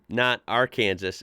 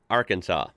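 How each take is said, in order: First: The word ends like the word Kansas. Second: The word ends with a saw sound. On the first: The speaker calls it wrong. "not Arkansas and Kansas" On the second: The speaker calls it right. "Kansas, Arkansas"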